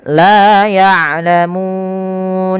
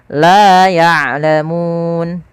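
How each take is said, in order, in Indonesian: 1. Vokal sebelum n terakhir panjangnya sedang. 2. Vokal sebelum n terakhir itu pendek. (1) "empat harokat" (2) "dua harokat"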